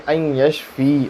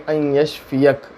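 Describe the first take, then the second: First: ان یشفی said ending on "fi", with no final syllable. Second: ان یشفیک said with the final syllable "ka" clearly voiced, slowly; ending -ka. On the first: Mufti showing the form for reciting over oneself, ان یشفی without the ending. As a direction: cut ان یشفی off after "fi". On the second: Mufti showing the form for reciting over someone else, ان یشفیک said slowly with "ka". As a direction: stretch out ان یشفیک and land on the final "ka". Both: Shown as a demonstration. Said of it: "بس اتنا فرق ہے".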